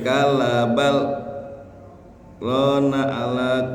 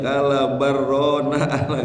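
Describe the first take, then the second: First: A brief breathless pause follows the first word. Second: The first word runs straight into the next. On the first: The speaker calls it right. "jadi ketika kalabal berhenti tuh, tapi jangan napas" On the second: The speaker calls it wrong. "nggak boleh disambung bacanya"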